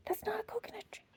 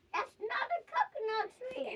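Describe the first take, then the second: First: Unvoiced whisper, NOT stressed; whispered warning. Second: Trailing echo whisper; softer whisper echo. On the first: Hippo whispering to the children, unvoiced. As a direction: breathe the words, no voice. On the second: Acted. Hippo's warning echoing in a whisper. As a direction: fade it out like an echo.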